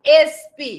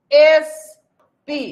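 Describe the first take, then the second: First: Said in the usual way. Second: এসপি stretched out very slowly and louder, the opening এ held; teacher exaggerating a letter sound; drawn-out spelling. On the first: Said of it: "এখানেও N পাচ্ছি". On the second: Shown as a demonstration. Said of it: "তাহলে এ".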